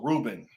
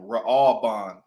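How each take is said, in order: First: The name is said in its familiar English form. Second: The name is said in its ancient Hebrew form.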